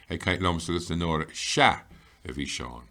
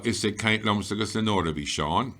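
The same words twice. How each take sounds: First: "Sha" punched, "a bhí Seán" dropping away; stress on Sha. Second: Said in the usual way. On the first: Shown as a demonstration. Teacher stressing "he was talking" for learners, with emphasis on "Sha". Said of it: "we wanted to stress that". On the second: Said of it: "So, we wanted to stress that".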